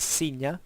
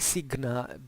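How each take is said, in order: First: It uses the church Latin pronunciation. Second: It uses the reconstructed classical Latin pronunciation. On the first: This is how the church traditionally says it. "the ecclesiastical pronunciation" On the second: This is how ancient Romans likely said it. "that's how we believe it was pronounced"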